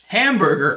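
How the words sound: It is said with an English accent.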